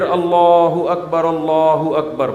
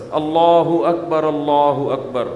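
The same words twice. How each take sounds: First: Azan call. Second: Slow measured Allah Akbar, not drawn out; short azan call. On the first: Preacher repeating the short azan call. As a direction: call it out, a bit fuller. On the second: Preacher showing a short proper azan call. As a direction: call it briefly and evenly. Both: Shown as a demonstration. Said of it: "مختصر اذان دے".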